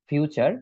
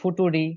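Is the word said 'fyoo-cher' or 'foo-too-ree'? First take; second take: fyoo-cher; foo-too-ree. First: It is said in two syllables, fyoo-cher. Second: It is said letter by letter, foo-too-ree. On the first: The speaker calls it right. "এটার উচ্চারণ হচ্ছে" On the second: The speaker calls it wrong. "তারপরে ফুটুরি"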